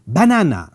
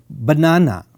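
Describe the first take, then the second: First: Banana with the first syllable ba punched hard, said quickly; stress on ba. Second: Banana with the first syllable ba kept light and unstressed; no stress on ba. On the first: Lecturer contrasting a stressed ba in banana. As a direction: hit the ba of banana. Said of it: "so there is a lot more stress there". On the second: Lecturer showing banana without stress on ba. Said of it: "you are not emphasizing here on the starting ba". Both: Shown as a demonstration.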